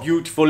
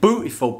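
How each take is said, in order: First: It is said in a plain, ordinary pronunciation. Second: It is said imitating a distinctive regional accent. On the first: The speaker calls it wrong. "Not beautiful" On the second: The speaker calls it right. "it's beautiful"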